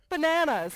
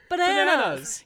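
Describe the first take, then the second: First: The word is said at normal volume. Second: The word is yelled loudly.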